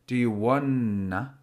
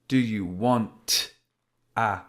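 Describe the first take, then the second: First: The T is dropped and the words flow together. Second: The T is clearly stopped before the next word. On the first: "instead of forming the T sound, I'll just form a linking Y sound" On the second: "I have to physically stop the pronunciation or the flow of my pronunciation to form the T sound"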